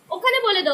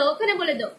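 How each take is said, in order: First: Put-on ओखने बोले दो said higher in a sing-song baby tone; baby talk. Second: Said in the usual way. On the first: Shown as a demonstration. Mother repeating her baby's words, in a higher baby-talk tone.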